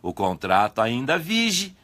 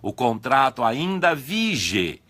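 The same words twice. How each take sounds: First: The last vowel of 'vige' sounds like 'i'. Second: The last vowel of 'vige' is a clear 'e'.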